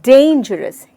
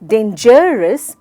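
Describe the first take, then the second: First: The stress is on the first syllable. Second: The stress is not on the first syllable. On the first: The speaker calls it right. "यानी डेन पे जोर देकर।" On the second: The speaker calls it wrong. "क्या मैं शब्द को dangerous या dangerous बोल सकती हूँ? बिल्कुल भी नहीं।"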